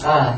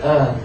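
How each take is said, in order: First: The vowel is said with an open mouth. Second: The vowel is said with a closed mouth. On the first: The speaker calls it right. "untuk mengucapkan fathah itu intidah mempakai terbuka" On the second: The speaker calls it wrong. "Kalau yang eh dia jelas nggak terbuka"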